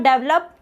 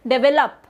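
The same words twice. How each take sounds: First: "develop" squeezed into two syllables, DEV-lop; wrong-example "develop", said as DEV-lop; mispronounced develop. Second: "develop" in three syllables, de-VE-lop; corrected develop. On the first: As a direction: drop the middle vowel of "develop": DEV-lop. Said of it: "it's not develop". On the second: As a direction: give "develop" its full middle VE. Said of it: "it's develop". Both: Shown as a demonstration.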